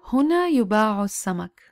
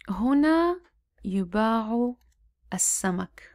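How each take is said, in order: First: It is read at a normal speaking pace. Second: It is read slowly with short vowels sounded. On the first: "I'll be reading at a normal pace" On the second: "Now let's read at a slower pace"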